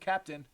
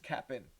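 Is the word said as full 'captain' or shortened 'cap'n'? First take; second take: captain; cap'n. First: The word is said fully with two clear syllables. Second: The word is shortened, with the middle sound dropped. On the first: The speaker calls it wrong. "don't say Captain because you're wrong" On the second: The speaker calls it right. "It's Cap'n"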